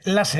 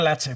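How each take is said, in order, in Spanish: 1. La consonante del medio es un sonido de s sencillo. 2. La consonante del medio es un sonido de ch. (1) "Lasse, no Lache, por favor" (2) "no Lache"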